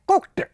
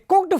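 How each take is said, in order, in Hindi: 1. शब्द का अंत t की ध्वनि से होता है। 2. शब्द का अंत d की ध्वनि से होता है। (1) "टे।" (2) "तो डे बोलूंगा।"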